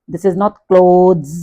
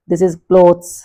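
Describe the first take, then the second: First: Clothes said the wrong way, slowly and deliberately. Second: Clothes said with a clear ending "clothz"; correct clothes. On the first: Teacher shows students the incorrect clothes, slow and clear. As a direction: say clothes as the wrong version, drawn out. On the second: Teacher models the right clothes for the class, clear. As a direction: give clothes the proper ending. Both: Shown as a demonstration.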